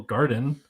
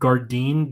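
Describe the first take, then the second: First: The second syllable sounds like 'den'. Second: The second syllable rhymes with 'fine'. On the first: The speaker thinks this is the real pronunciation. "I think it's still garden" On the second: A family member says it this way. "she pronounces it Gardine"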